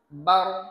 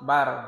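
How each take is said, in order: First: The final r sound is heavy and thick. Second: The final r sound is light and thin. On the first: The speaker calls it right. "Oronya harus tebal" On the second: The speaker calls it wrong. "Tadi Bapak baca ti, tipis. Maka ya menjadi salah"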